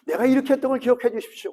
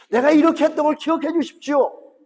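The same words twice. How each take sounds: First: Brisk preacher's quote; quick recap. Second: A king proudly reminding God of 이렇게; boastful plea. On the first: Shown as a demonstration. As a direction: rattle off 내가 이렇게 했던 걸 as a recap. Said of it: "기도가 두 개입니다". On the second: Acted. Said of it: "하나님".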